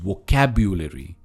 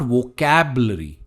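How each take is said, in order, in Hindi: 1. 'cab' के बाद 'yu' की आवाज़ आती है। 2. 'cab' के बाद 'yu' की आवाज़ नहीं आती है। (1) "इट्स वोकैब्यूलरी" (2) "इट्स नॉट वोकैबलरी"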